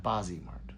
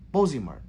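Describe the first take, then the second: First: "Bozzy Mart" said BAH-zee mart, softly; open ah in Bozzy. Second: "Bozy Mart" said BOH-zee mart; long o in Bozy. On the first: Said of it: "not Bozzy Mart". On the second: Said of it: "not Bozzy". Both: Shown as a demonstration.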